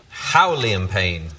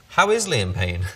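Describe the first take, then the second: First: Puzzled slow read. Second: Amused correction. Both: Shown as a demonstration.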